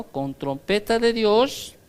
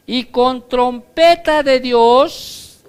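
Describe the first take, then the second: First: Said in the usual way. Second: "trompeta de Dios" rung out loud, high and slow; trumpet proclamation. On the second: Acted. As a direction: announce "trompeta de Dios" like a fanfare. ("y con trompeta de Dios", fuerte, agudo y lento) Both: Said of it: "otra cosa que acompaña al rapto".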